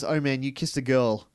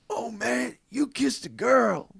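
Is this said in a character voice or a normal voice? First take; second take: normal voice; character voice. First: It is said in the speaker's normal voice. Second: It is said in a put-on character voice. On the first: "if you just had the quote" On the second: "I'm going to try and do his voice"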